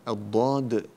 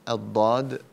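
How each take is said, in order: Both takes have the same delivery.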